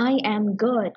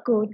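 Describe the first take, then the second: First: Said in the usual way. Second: Just "good", subject and verb dropped; casual one-word reply "good"; clipped short answer. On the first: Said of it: "แทนที่จะบอกว่า". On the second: Shown as a demonstration. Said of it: "ตอบสั้นๆไปเลยว่า".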